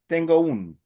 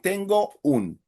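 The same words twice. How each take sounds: First: The two words run together as one word. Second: The two words are said as separate words. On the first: The speaker calls it right. "that will sound like one word" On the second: The speaker calls it wrong. "It won't sound like"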